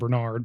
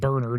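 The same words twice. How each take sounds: First: The name is said the American way. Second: The name is said the British way. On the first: "instead of Bernard" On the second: "he's British, so I assume he pronounces it Bernard"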